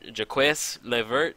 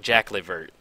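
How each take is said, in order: First: The first name is said like 'Jacques'. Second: The first name is said like 'Jack'. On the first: The speaker calls it wrong. "I think I tried to pronounce it Jaques Levert" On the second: The speaker calls it right. "but I think it's actually like Jack Levert"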